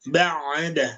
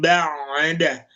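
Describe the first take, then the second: First: The throat is relaxed and not forced. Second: The throat is squeezed tight and forced. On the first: The speaker calls it right. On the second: The speaker calls it wrong.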